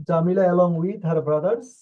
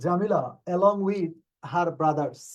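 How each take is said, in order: First: Slow and a little louder, rising at the end; slow reading. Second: Slow, deliberate dictation pace; slow reading. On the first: Teacher rereading the question slowly and louder to students. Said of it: "teacher rereads question slowly". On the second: Teacher reading question ten slowly to the class. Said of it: "teacher reads question slowly". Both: Shown as a demonstration.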